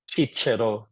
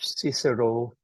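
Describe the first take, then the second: First: The name is pronounced the Latin way. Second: The name is pronounced the English way.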